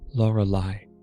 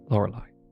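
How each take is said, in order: First: The name is said slowly. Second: The name is said at normal speed.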